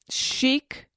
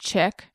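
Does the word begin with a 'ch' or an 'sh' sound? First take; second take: sh; ch. First: The word begins with an 'sh' sound. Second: The word begins with a 'ch' sound. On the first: The speaker calls it right. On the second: The speaker calls it wrong.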